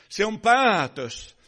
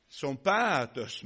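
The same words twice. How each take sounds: First: Päätös hit louder, falling firmly; stress on päätös. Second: Said in the usual way. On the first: Acted. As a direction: punch the word päätös. Repeated with emphasis.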